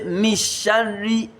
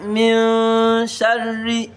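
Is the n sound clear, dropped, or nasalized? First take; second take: dropped; nasalized. First: The n is merged away and not heard. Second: The n is hidden in a nasal hum. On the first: The speaker calls it wrong. "I did not say mishari" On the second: The speaker calls it right. "I said min sharri"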